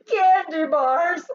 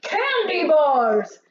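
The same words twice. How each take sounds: First: Higher, louder, slow, through laughter; laughing shout. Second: Higher, louder, slow Candy bars!; shouted. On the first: Mac shouts again, laughing at the thieves. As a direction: shout it while still laughing. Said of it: "the laughter beginning again". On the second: Mac shouts the truck's real cargo at the thieves. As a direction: bellow it out slowly. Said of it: "Mac shouted". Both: Acted.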